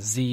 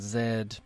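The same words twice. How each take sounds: First: The letter is said the American way. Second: The letter is said the British way. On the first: "Z in the United States" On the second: "Z in uh, in the U K English"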